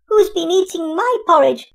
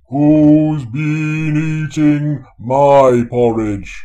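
First: It is squeaked in a little, high voice. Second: It is said in a big, deep bear voice.

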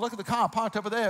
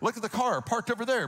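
First: The r sounds are dropped in a Boston accent. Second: The r sounds are fully pronounced in a Midwestern accent. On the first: "pretend that I had moved from Boston" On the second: "like a good old Midwesterner"

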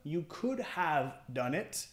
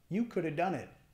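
First: The word 'have' is pronounced in full. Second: The 'have' is reduced to a weak 'uh' sound. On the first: "En vez del could have" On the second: "You coulda"

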